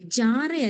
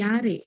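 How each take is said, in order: First: The word begins with a 'j' sound. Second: The word begins with a 'y' sound. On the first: The speaker calls it wrong. "ജാറെ അല്ല" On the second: The speaker calls it right. "ജെ നമ്മള് വൈ എന്ന് പ്രൊനൗൺസ് ചെയ്യുന്നത്"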